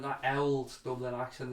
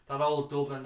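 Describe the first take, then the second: First: Put-on "old" said as Dublin "auld"; local Dublin pronunciation. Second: Said in the usual way. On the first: Shown as a demonstration. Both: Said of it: "as we like to call it".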